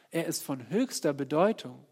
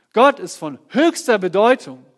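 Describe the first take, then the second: First: Said in the usual way. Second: Louder and higher declaration; "Gott ist von höchster Bedeutung" ringing out loud and high; preacher's booming declaration; loud proclamation. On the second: Acted.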